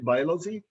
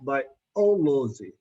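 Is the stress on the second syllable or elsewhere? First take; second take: elsewhere; second. First: The stress is not on the second syllable. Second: The stress is on the second syllable. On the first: The speaker calls it wrong. "We don't say" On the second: The speaker calls it right. "the third syllable from the last"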